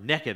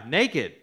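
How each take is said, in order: First: The word has a folksy regional pronunciation. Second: The word has a standard pronunciation.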